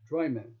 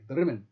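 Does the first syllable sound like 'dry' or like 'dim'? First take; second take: dry; dim. First: It is said like two words, 'dry men'. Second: It is said as one word with a short 'i'. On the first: An outsider is saying the name. "pronounces the small town of Bremen like two words" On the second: Locals are saying the name. "the Scots say Drymen like Drimmen"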